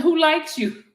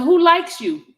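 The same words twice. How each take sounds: First: Asking through a laugh. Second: Said in the usual way. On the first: Retold or imitated. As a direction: giggle while reading it back.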